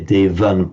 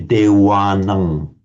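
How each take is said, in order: First: The second consonant is an English V sound. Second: The second consonant is a pure W sound. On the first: This is how English speakers read it. "pronouncing the V exactly like as, as they would in English" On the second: This is how it is said in Thailand. "always pronounce it as a pure W"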